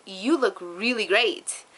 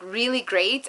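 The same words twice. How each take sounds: First: Slow, drawn-out "you look really great" with weight on the words; son's sincere compliment. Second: "really great" with a lifted, stretched "really"; imitating son's emphasis. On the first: Retold or imitated. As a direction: linger on "really great" like a kid who means it. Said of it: "But the way he said it". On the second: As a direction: lean on "really" and rise on it. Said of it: "the way he said, like".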